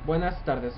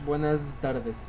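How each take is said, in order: First: The s in buenas sounds like a plain s. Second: The s in buenas sounds like a z. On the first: The speaker calls it right. "هون buenas tardes ... مثل اس يعني مثل العادة، مثل سين" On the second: The speaker calls it wrong. "مش buenas tardes"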